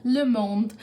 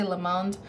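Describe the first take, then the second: First: Le Monde in a French accent, nasal on Monde; French pronunciation. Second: Le Monde said the plain English way, like lee mond; Le Monde read as English words; anglicized pronunciation. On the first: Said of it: "I had to put in the accent there". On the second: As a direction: say Le Monde flatly in an American way. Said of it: "that's not the way you say it". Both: Shown as a demonstration.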